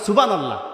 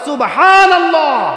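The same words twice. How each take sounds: First: The word is said hastily and without care. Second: The word is said slowly and with care. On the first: The speaker calls it wrong. "আমরা তো সুবহানাল্লাহ সুন্দর করে বলতে পারি না, আমরা কই" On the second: The speaker calls it right. "সুবহানাল্লাহ না, বলেন"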